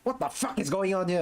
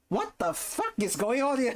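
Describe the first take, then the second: First: It sounds annoyed and exasperated. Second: It sounds amazed and delighted. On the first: The surprise is unpleasant confusion. The speaker calls it wrong. "not the" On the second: The surprise is a pleasant sense of wonder. The speaker calls it right. "But in, in a positive way"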